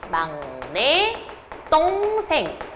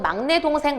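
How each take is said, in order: First: The second word starts with a tense consonant. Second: The second word starts with a plain consonant. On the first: The speaker calls it right. "표준 발음은 막내 똥생이에요" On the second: The speaker calls it wrong. "막내 동생이라고 하는데 잘못됐습니다"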